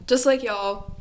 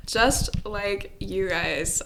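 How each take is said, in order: First: Light Southern twang on y'all; a hint of a Southern accent. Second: Said in the usual way. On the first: Real, not acted. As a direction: let a little Southern slip into y'all. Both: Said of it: "that sounded really Southern".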